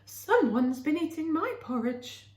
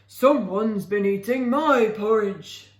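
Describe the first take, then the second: First: A normal middle voice for Mother Bear. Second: A deep growling voice for Father Bear.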